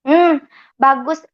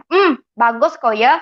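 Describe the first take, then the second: First: Said in the usual way. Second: Put-on slow "bagus kok ya" in a light Pontianak Malay accent, "bagus" as "bagos"; sarcastic mother, lightly voiced in Pontianak accent. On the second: Mother's sarcastic chat read in a mild Pontianak accent. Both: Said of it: "ini saya pakai logat Pontianak aja".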